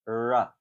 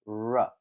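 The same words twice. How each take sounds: First: The r is made with spread lips. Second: The r is made with rounded lips. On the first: The speaker calls it wrong. "while stretching my lips out, it's not quite the same" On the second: The speaker calls it right. "my lips, which is they're kind of rounded, a little bit like the w sound"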